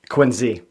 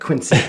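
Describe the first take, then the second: First: The middle consonant sounds like a z. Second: The middle consonant sounds like an s. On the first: The speaker is a local. The speaker calls it right. "With a Z" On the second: The speaker is an outsider. The speaker calls it wrong. "when they say it like that"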